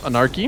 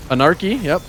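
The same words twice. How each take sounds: First: "anarchy" with a rising tune. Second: "anarchy" said with falling stress. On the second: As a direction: say "anarchy" firmly, stress first syllable. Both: Shown as a demonstration. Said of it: "There's one".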